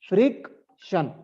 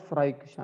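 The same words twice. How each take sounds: First: The word ends with a 'shun' sound. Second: The word ends without a 'shun' sound. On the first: The speaker calls it right. "The pronunciation is shun" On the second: The speaker calls it wrong. "not friction"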